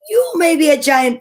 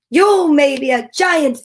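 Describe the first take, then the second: First: Quicker, raised storybook bawl; higher and louder, moving briskly. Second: Slow, raised storybook bawl; higher and louder, drawn out. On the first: Chief challenging the giant in a second take, brisk bawl. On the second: Chief answering the boastful giant, slow bawl. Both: A narrator's reading. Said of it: "bawled the chief".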